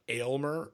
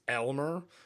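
First: The name starts with an 'ay' sound. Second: The name starts with an 'eh' sound. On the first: The speaker calls it wrong. "It's not Aylmer" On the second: The speaker calls it right. "It's Elmer Meat Packers"

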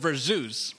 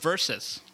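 First: The word is said like ver-zoos. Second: The word is said like ver-sus. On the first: The speaker calls it wrong. "I thought it was Verzeus" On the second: The speaker calls it right. "but apparently it's Versus"

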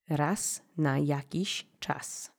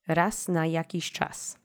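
First: The phrase is said slowly, with a bouncy rhythm. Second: The phrase is said at a normal speaking speed. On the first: "give it that little bounce" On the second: "just normal speed"

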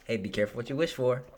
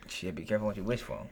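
First: It is said in a cheery, friendly tone. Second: It is said in a harsh, ominous tone.

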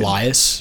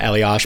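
First: The name ends with an 's' sound. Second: The name ends with an 'sh' sound. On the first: "what is the other pronunciation?" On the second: "I'm pronouncing it Eliash because that's the way I'm supposed to pronounce"

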